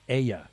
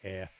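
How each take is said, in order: First: The word is drawn out into two syllables. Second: The word is said as one plain syllable. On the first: It is an exaggerated, silly regional version. "Only a New Englander would make a two-syllable word out of air" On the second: It is the usual everyday version. "We just mostly say it like air"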